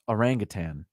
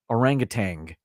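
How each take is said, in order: First: The word ends without a g sound. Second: The word ends with an added g sound. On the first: The speaker calls it right. "Now I know it's orangutan" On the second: The speaker calls it wrong. "an anglicized version that adds another G to the end"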